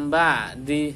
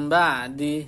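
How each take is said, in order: No difference in how they are said.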